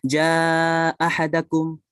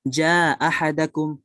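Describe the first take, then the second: First: The long vowel is held at medium length. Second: The long vowel is kept short.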